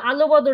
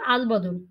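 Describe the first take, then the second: First: An extra vowel sound follows the first syllable. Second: No extra vowel sound follows the first syllable. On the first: The speaker calls it wrong. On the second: The speaker calls it right.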